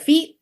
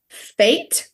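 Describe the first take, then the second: First: The vowel sounds like the one in 'feet'. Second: The vowel sounds like the one in 'fate'. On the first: The speaker calls it wrong. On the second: The speaker calls it right.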